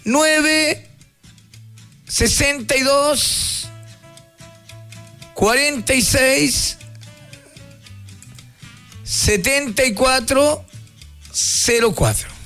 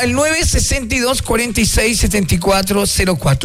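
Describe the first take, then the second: First: The number is read at a slower pace. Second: The number is read at a quicker pace.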